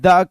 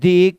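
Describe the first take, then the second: First: The word ends in a short 'uh' vowel. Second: The word ends in a long 'ee' vowel. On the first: A consonant sound follows. "जब consonant sound के पहले द आता है तो इसका उच्चारण द किया जाता है" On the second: A vowel sound follows. "जब वोवेल साउंड के पहले द आता है तो इसका उच्चारण दी किया जाता है"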